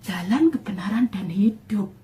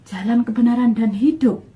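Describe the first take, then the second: First: Awed hushed whisper of scripture. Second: "jalan, kebenaran, dan hidup" said louder, "kebenaran" stressed, "hidup" rising; louder, eager repeat of the phrase; excited realization. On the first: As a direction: murmur the words as if struck by them. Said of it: "Langsung des ini hati saya". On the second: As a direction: proclaim it like a discovery. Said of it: "Berarti Tuhannya orang Kristen ini". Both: Retold or imitated.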